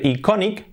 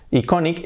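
First: "iconic" in Spanish sounds, ee-KO-neek; read as spelt. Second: "iconic" said eye-KON-ik; English pronunciation. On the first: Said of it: "se escribe iconic". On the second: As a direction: open "iconic" with an EYE sound. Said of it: "se pronuncia iconic". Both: Shown as a demonstration.

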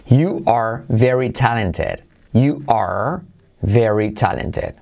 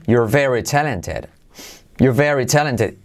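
First: Said in the usual way. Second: "You're" run together as one syllable; contracted you're. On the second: Shown as a demonstration. Teacher contrasting full and contracted forms for students. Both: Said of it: "Contraído".

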